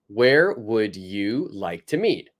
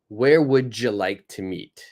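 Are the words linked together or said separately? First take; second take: separately; linked. First: Each word is said separately and clearly. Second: The words are linked and mashed together. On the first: "if we say this using each word separately" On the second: "We like to link words. We like to mash up the words together"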